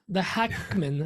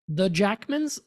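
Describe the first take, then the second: First: The name begins with an H sound. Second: The name begins with an English J sound. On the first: "you say the J like you would jalapeno" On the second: "I don't know if I'm pronouncing this right"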